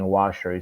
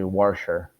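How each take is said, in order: First: The word is said in a standard accent. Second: The word is said in a Baltimore accent. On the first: "instead of saying washer" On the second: "it's like a lot of the Baltimore accent. ... they say washer"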